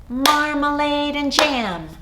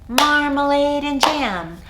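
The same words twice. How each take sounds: Both takes have the same delivery.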